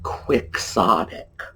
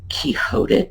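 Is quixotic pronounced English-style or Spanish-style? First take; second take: English-style; Spanish-style. First: It is said as English spelling suggests. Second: It is said like the Spanish name Quixote. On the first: The speaker calls it right. "just like it's spelled in English" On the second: The speaker calls it wrong. "if you know that it comes from Don Quixote, then you're going to be tempted to say"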